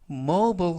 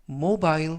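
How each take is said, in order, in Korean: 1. 미국식 억양으로 발음합니다. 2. 영국식 억양으로 발음합니다. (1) "미국식 발음" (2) "영국식 발음"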